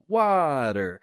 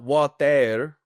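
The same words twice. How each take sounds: First: A soft D-like T with a weaker second syllable. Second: A clear T with both syllables equally strong. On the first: The speaker calls it right. "it's not equal on both syllables. There's got to be a little water" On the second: The speaker calls it wrong. "it's not water, water"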